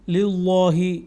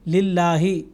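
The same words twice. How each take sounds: First: The L is pronounced heavy and full. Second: The L is pronounced light and thin. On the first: The speaker calls it wrong. "इस तरह से नहीं अदा किया कि लिल्लाही, ये गलत है" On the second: The speaker calls it right. "इसको हमने पुर नहीं किया, बल्कि लिल्लाही इस तरह से अदा किया"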